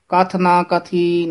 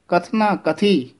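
First: There is a break between kath and na. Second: Kathna is joined smoothly as one word. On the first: The speaker calls it wrong. "ਕਥ ਨਾ ਵੱਖਰਾ ਹੋ ਜਾਂਦਾ" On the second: The speaker calls it right. "ਬੋਲਣਾ ਇਕੱਠਾ ਹੀ ਹੈ"

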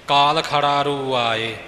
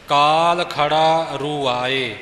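First: 'Khara' and 'roo' run together as one word. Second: 'Khara' and 'roo' are said as separate words. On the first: It forms a meaningless word. The speaker calls it wrong. "ਇਉਂ ਖੜਾਰੂ ਲਫਜ਼ ਬਣ ਗਿਆ ਜਿਹਦਾ ਅਰਥ ਹੀ ਕੋਈ ਨਹੀਂ" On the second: The words keep their proper meaning. The speaker calls it right. "ਇਉਂ ਨਖੇੜ ਕੇ ਪਾਠ ਦਾ ਉਚਾਰਨ ਕਰਨਾ ਹੈ ਜੀ"

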